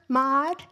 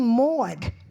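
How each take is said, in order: First: The vowel sounds close to the one in 'mod'. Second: The vowel is a rounded, drawn-out New York 'aw'. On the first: "who grew up in L A" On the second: "I still have my New York accent"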